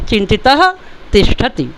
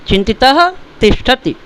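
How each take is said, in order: The two takes are said the same way.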